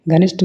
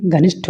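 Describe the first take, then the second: First: घनिष्ठ ending in "sht", no puff; unaspirated ṭa. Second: घनिष्ठ ending in "shth", with a puff; aspirated ṭha. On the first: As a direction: close घनिष्ठ on a plain ṭ. (घनिष्ठ के अंत में "ट" बोलें) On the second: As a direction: aspirate the last consonant of घनिष्ठ. (घनिष्ठ के अंत में "ठ" बोलें) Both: Shown as a demonstration. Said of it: "टा और ठा संबंधित".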